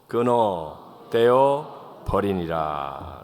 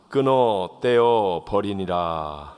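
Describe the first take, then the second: First: It is said slowly, word by word. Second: It is said at a normal speed.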